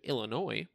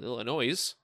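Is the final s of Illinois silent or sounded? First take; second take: silent; sounded. First: The word ends without an s sound. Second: The word ends with an audible s sound. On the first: The speaker calls it right. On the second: The speaker calls it wrong.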